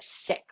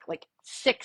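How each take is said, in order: First: Breathy whisper of the word sick; hushed mock whisper of sick. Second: Said in the usual way. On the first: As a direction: whisper it like a secret. Patient mouthing the word sick.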